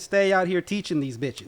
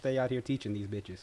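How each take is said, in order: First: It is said loudly, projected to carry far. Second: It is said at a normal conversational volume.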